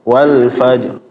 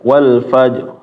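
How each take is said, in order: Both takes have the same delivery.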